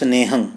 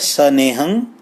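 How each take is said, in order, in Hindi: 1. s और n बिना स्वर के जुड़े हुए हैं। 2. s और n के बीच एक स्वर सुनाई देता है। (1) "ਭਾਵ ਨੰਨਾ ਪੂਰਾ ਨਹੀਂ ਹੈ" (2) "ਪਿਛਲਾ ਹੈ ਸਨੇਹੰ"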